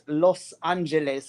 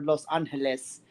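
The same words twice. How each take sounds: First: The name is said with English pronunciation. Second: The name is said with Spanish pronunciation. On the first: "I call it" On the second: "for those of us that speak Spanish"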